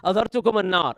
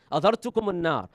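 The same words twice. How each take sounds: First: "adhartukum an-nar" repeated louder and higher, climbing; louder still. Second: "Adhartukum an-nar" called out with a raised, passionate voice. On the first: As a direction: let the warning swell to a passionate call. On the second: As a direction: start the warning strong, still holding back. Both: Shown as a demonstration. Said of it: "it would get louder and louder".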